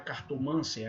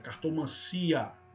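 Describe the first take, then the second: First: The stress is on the third-to-last syllable. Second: The stress is on the second-to-last syllable. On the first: The speaker calls it wrong. "Não é" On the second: The speaker calls it right. "é cartomancia"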